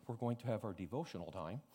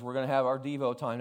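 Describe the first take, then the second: First: Put-on softer old-fashioned take. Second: Said in the usual way. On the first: Shown as a demonstration. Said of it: "They said". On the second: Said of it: "they didn't call it Devo back then".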